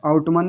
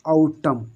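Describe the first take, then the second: First: आउटमन ending in a sounded "man"; wrong reading, N sounded. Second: आउटम stopping on the M; silent N. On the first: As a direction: say आउटमन with the final N voiced. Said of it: "आउटमन नहीं पढ़ेंगे". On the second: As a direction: say आउटम as "au-tam", no N. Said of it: "इसको पढ़ेंगे सिर्फ आउटम". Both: Shown as a demonstration.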